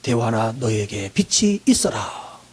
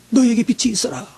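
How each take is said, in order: First: Very low, very slow, quiet divine pronouncement; God's command. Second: Said in the usual way. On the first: Acted. Preacher voicing God speaking to his people, deep and slow. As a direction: stretch out 빛이 deep and slow like a voice from heaven. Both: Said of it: "하나님이 말씀합니다".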